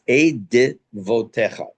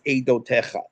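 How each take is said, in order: First: The word is said with a middle 'v' sound. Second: The word is said without a middle 'v' sound. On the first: The speaker calls it right. "It's Eidevotecha" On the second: The speaker calls it wrong. "It's not pronounced Eidotecha"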